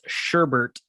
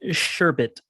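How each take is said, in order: First: The second syllable has an r sound. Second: The second syllable has no r sound. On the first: The speaker calls it wrong. "colloquially mispronounced as sherbert" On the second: The speaker calls it right. "the word is sherbet"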